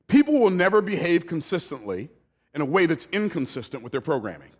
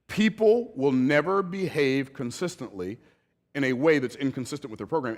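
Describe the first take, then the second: First: It is said too fast. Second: It is said more slowly.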